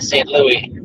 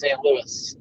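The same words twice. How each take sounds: First: The final s of Louis is silent. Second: The final s of Louis is pronounced. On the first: The speaker calls it wrong. "not Saint Louis. At least I don't think anyone says Saint Louis" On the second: The speaker calls it right. "but it's Saint Louis"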